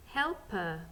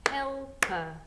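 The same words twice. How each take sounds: First: Said in the usual way. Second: Helper in two beats, HEL-PER, higher on the first; split into syllables. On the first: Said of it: "Ready to sound out?". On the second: Shown as a demonstration. Teacher counts syllables in Helper, beating out HEL-PER. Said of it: "How many syllables was in that word?".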